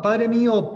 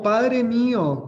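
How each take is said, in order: First: Loud high cry of grief. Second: Slow, loud, high wail of loss; drawn-out cry. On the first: Elisha crying out to his master as he is taken, loud high cry. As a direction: cry out to the departing father. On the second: Elisha calling after his master carried up to heaven, slow loud wail. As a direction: stretch the cry out long and loud. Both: A narrator's reading.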